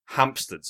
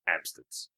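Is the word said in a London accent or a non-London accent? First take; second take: non-London; London. First: It is said without a London accent. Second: It is said in a London accent.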